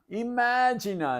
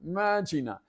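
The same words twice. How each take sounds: First: The opening vowel is pronounced. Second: The opening vowel is left off.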